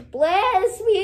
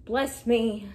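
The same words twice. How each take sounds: First: Higher, louder dramatic wail; hammed-up cry for blessing; mock wailing plea. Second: Said in the usual way. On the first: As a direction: wail it out, stretching the last word. Same plea repeated, hammed up.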